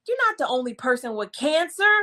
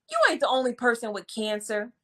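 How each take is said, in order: First: Said in the usual way. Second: Dismissive. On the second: Shown as a demonstration. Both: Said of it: "said it like that".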